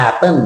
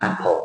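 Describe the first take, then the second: First: "apple" ending in an N, like "appen"; mispronounced apple. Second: Said in the usual way. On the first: Shown as a demonstration. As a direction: say "apple" the wrong way, final L turned to N. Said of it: "it's not apple". (พูด "apple" ผิด ลงท้ายเป็นเสียง น) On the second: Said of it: "it's apple".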